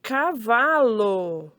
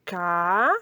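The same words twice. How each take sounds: First: "cavalo" as one slow, stretched word, falling at the end; blended word, drawn out. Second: "Cavalo" in three separate syllables with pauses. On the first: Teacher revealing the formed word, "cavalo" slowly drawn out. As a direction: join the syllables of "cavalo" slowly. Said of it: "Formou a palavra". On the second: Teacher reading with the children, "Cavalo" syllable by syllable. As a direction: read "Cavalo" piece by piece, first syllable rising. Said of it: "Vamos ler?". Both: Shown as a demonstration.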